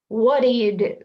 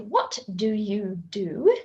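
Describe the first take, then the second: First: The t and d sounds merge into one sound. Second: The t and d sounds are said separately. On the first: The speaker calls it right. "We'd say" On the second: The speaker calls it wrong. "we wouldn't say"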